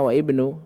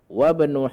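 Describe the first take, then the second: First: The initial vowel of ibnu is clearly pronounced. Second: The initial vowel of ibnu is dropped and linked. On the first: The speaker calls it wrong. "Seharusnya wa ibnu" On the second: The speaker calls it right. "tidak bisa dibaca"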